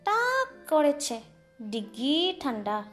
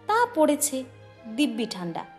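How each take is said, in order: First: The lip consonants become back-of-mouth sounds. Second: The lip consonants are pronounced normally. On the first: It can be said without moving the lips. "তাহলে সেটা বলতে হবে এইভাবে" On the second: This is ordinary speech. "কথোপকথন যদি এই রকম হয়"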